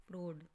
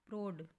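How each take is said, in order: No difference in how they are said.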